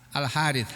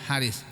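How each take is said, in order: First: The name has Arabic sounds, ending in th. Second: The name has plain local sounds, ending in s. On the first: "kalau bahasa Arabnya Al Haris" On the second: "Kalau kita ngomongnya Haris"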